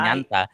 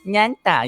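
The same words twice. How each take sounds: First: It is said in a plain tone. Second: It is said in a cute tone.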